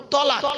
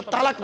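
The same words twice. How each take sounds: First: তলাক with a short first vowel, as ṭalāq; correct Arabic pronunciation. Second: তালাক with a long open ā in the first syllable; the wrong way. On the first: Preacher teaching the crowd the right word তলাক. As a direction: stress তলাক, keeping the first syllable short. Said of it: "শব্দটা হলো তলাক". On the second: Preacher showing the crowd the wrong word তালাক. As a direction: say তালাক as tālāk, the common Bengali way. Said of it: "শব্দটা তালাক নয়". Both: Shown as a demonstration.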